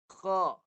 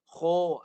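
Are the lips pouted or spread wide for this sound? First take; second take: wide; pouted. First: The mouth is spread wide, lips unrounded. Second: The lips are pushed forward and rounded. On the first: The speaker calls it right. "Lebar dulu" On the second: The speaker calls it wrong. "biasa kho ni orang muncung"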